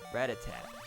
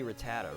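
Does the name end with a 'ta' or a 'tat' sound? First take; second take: tat; ta. First: The name ends with a closed 'tat' sound. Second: The name ends with an open 'ta' sound. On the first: The speaker calls it wrong. "everybody pronounced it rat-a-tat ... that's just obviously wrong" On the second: The speaker calls it right. "So it's gotta be Rattata, right?"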